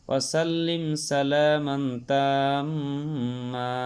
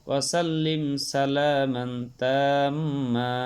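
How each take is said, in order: No difference in how they are said.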